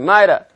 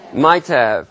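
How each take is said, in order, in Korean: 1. t는 탄설음이 되고, 'have'는 약한 소리로 줄어들어요. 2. 각 단어를 완전하고 따로따로 발음해요.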